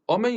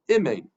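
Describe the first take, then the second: First: The first vowel is an open ah sound. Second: The first vowel is a short reduced sound. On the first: The speaker calls it right. "you don't say a kametz under the aleph" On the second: The speaker calls it wrong. "you say a shva under the aleph"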